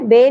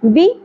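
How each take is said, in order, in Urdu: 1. اس حصے میں 'ay' کی آواز ہے۔ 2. اس حصے میں چھوٹی 'i' کی آواز ہے۔ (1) "بے نہیں پڑھنا" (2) "بی زیر ہے"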